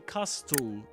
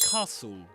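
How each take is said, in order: First: The T sound is pronounced in the middle. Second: The T sound is silent in the middle. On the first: The speaker calls it wrong. "You don't say castle" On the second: The speaker calls it right. "you don't pronounce the T"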